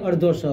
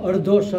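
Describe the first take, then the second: Both takes have the same delivery.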